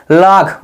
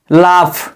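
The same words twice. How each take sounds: First: "लाख" said with a final kh, as the wrong reading; wrong pronunciation. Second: "लाफ" with a clear final f sound; correct pronunciation. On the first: Teacher showing the class the wrong reading "लाख". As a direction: give the mistaken "लाख" deliberately. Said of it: "वो गलत है". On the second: Teacher giving the right reading "लाफ". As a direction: say "लाफ", ending on f. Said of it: "जैसे". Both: Shown as a demonstration.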